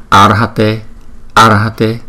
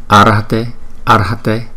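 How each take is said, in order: No difference in how they are said.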